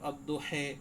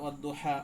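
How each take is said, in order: First: The final vowel is fronted toward 'e'. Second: The final vowel is an open 'a' sound. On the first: "এ পড়তে হবে, এ এমালা করে" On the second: "আমরা পড়ি সাধারণত অদ্দোহা হাফস কেরাতে"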